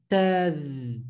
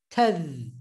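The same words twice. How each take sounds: First: "tadh" split into two beats, ta then adh; wrong two-syllable take. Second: Said in the usual way. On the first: Shown as a demonstration. Teacher shows the wrong way to students, split in two. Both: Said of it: "Not tadh".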